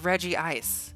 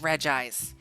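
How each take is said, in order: First: The first part has two syllables, Reggie. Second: The first part has one syllable, Reg. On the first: The speaker calls it right. "I'm pretty sure it's Reggie Ice" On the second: The speaker calls it wrong. "everyone started like telling me like"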